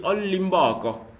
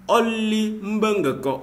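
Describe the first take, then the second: First: On limbe encore run together at normal pace; contracted On limbe encore; shortened liaison form. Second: On limbe encore slow and higher, syllables kept apart; careful full On limbe encore; full careful form. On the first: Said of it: "on peut dire". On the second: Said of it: "au lieu de dire". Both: Shown as a demonstration.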